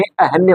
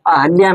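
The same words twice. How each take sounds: First: अहल्य with a short final -ya; corrected form. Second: अहल्या ending in long -yaa; word being corrected. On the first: Teacher giving students the corrected form, short ending. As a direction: say अहल्य as a-hal-ya. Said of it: "अहल्य होता है". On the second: Teacher contrasting word forms for students, word being corrected. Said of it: "अहल्या में अहल्य होता है". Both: Shown as a demonstration.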